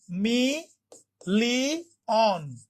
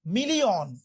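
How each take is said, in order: First: মি-লি-অন very slow, three separate drawn-out syllables. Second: Said in the usual way. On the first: Shown as a demonstration. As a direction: stretch and separate each part of মি-লি-অন. Teacher breaks word into syllables.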